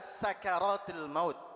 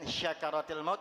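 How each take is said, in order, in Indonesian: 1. Kata pertama diawali dengan bunyi s biasa. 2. Kata pertama diawali dengan bunyi sh. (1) "Tapi yang benar adalah sakaratil maut" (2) "Bukan syakaratil maut ya"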